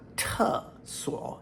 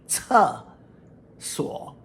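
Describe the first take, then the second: First: The first syllable starts with a plain t sound. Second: The first syllable starts with a ts sound. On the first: The speaker calls it wrong. "my pronunciation was slightly off" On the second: The speaker calls it right. "the difference between a T sound and a T S sound"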